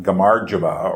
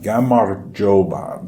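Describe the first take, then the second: First: Gamarjoba with an uneven, bumpy rhythm; wrong rhythm. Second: Gamarjoba said slowly, every syllable clear; Georgian word said slowly. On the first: Teacher showing learners the wrong take, bumpy rhythm. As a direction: say gamarjoba the wrong way, stresses jumping about. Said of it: "It's not gamarjoba or something like that". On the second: Teacher to viewers, modelling the word slowly. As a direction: spell out Gamarjoba slowly, with a light rolled R. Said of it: "get the rhythm right". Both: Shown as a demonstration.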